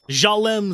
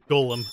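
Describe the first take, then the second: First: The name is said with a deliberately altered sound. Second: The name is said in its usual form.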